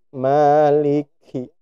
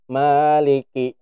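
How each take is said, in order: First: The k comes out with a puff of breath. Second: The k comes out with no puff of breath. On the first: The speaker calls it right. "Nah, gerak ya" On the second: The speaker calls it wrong. "Gak gerak ya"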